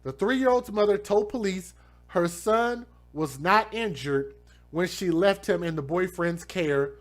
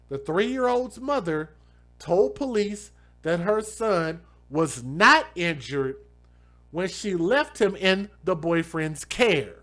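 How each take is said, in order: First: It is read at a normal pace. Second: It is read very slowly.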